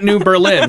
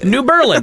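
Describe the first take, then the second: First: Berlin is stressed on its second syllable. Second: Berlin is stressed hard on its first syllable. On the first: "because it's not New Berlin" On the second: "we just put the emphasis on the really hard on the first syllable"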